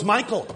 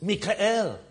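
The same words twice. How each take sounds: First: Said in the usual way. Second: "Mikael" slowly, in three syllables, mee-kha-EL; Hebrew pronunciation. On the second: Retold or imitated. Brother giving his own name, "Mikael" as Hebrew mee-kha-EL. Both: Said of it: "But we're not in Israel".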